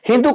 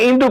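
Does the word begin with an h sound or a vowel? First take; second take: h sound; vowel. First: The word begins with an h sound. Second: The word begins directly with a vowel. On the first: The speaker calls it right. "କେବେ ହିନ୍ଦୁ କହିପାରିବ ନାହିଁ" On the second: The speaker calls it wrong. "ସେ ଇନ୍ଦୁ କହୁଛି"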